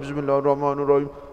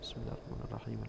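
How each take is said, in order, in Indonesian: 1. Diucapkan terlalu keras, hampir berteriak. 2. Diucapkan dengan volume sedang, cukup terdengar. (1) "Enggak usah kencang-kencang. Karena terlalu" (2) "Itu pasti kedengeran, udah tahu. Ya udah segitu, level volumenya segitu. Cukup"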